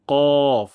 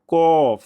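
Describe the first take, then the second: First: Loud কফ with thick q from tongue root; heavy qaf. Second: কফ with an ordinary forward k; wrong kof. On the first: Teacher showing correct sound, heavy back-q কফ. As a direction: press কফ out from the back palate. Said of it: "মোটা সাউন্ডে উচ্চারণটি করব". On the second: Teacher showing what to avoid, plain-k কফ. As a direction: Bengali k in a drawn কফ. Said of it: "যেন এমনটি না হয়". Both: Shown as a demonstration.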